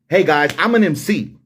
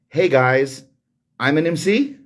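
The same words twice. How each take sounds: First: It sounds sure, like a firm statement. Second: It sounds unsure, like a question. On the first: The speaker asserts the claim with ego. The speaker calls it right. "a little bit more with confidence" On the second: The speaker seems unsure of the claim. The speaker calls it wrong. "more so asking a question than making a statement"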